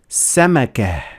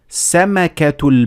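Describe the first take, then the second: First: The word ends with an h sound. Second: The word ends with a t sound. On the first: The reader stops after this word. "if you stop at the word, you pronounce it as a ha" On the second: The reader continues to the next word. "if you keep on reading, you pronounce it as a ta"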